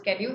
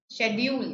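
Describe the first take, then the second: First: The word is said the common modern way. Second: The word is said the British way. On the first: "everybody these days calls it schedule" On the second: "schedule is the preferred pronunciation in British English"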